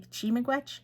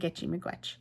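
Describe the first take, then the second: First: It starts directly with 'chi', no 'gi' syllable. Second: It starts with an extra 'gi' syllable before 'chi'. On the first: This is how some other speakers say it. "some people will say" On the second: This is how the speaker grew up saying it. "I've grown up always saying"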